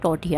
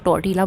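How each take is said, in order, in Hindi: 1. इस शब्द में Y की ध्वनि है। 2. इस शब्द में L की ध्वनि है। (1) "लेकिन ये टोर्टिया है" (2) "काफ़ी लोग जो हैं इसको टोर्टिला बोलते हैं"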